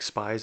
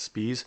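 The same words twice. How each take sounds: First: It is said like the English word spies. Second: It is said with a German pronunciation. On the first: "is spelled like spies" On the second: "in German language... his name would be pronounced Spies"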